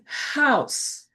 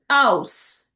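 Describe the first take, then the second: First: The word starts with a breathy H sound. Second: The word starts directly with the vowel. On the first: "instead of saying house" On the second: "they'll say house without the H"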